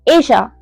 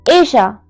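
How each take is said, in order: First: The middle consonant is a soft Y-like sound. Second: The same.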